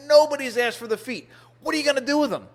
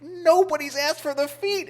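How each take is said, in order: First: Higher, clipped-off insistence, "Nobody's asked for the feet" falling at the end; a mock-offended butcher defending her trade; imitating an indignant butcher. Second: High, rising "Nobody's asked for the feet", in disbelief; incredulous echo. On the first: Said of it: "she was angry at me". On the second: Retold or imitated. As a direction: repeat it back, stunned she never got asked. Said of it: "I looked at her in disbelief".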